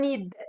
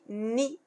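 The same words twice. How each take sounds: First: The final d is pronounced aloud. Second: The final d is left silent. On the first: The speaker calls it wrong. "On dit pas ni" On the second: The speaker calls it right. "Je dis ni"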